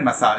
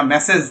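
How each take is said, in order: First: ম্যাসাজ with long second vowel, "ma-SAAZH"; correct massage pronunciation. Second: মেসেজ as short "MESS-ij"; wrong word, message. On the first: Teacher separating it from message, long-ending ম্যাসাজ "ma-SAAZH". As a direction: stress the end of ম্যাসাজ, "ma-SAAZH". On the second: Teacher showing the confusion, short "MESS-ij" for মেসেজ. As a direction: stress the first syllable of মেসেজ, short ending. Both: Shown as a demonstration. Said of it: "এটা মেসেজ না".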